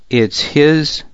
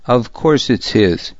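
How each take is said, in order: First: "It's his" lifted higher as a question. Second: Mildly stubborn, falling statement. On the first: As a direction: ask "It's his?" as a challenge to confirm. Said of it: "I asked my cousin". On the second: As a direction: insist on it with understated stubbornness. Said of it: "he answered stubbornly". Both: A narrator's reading.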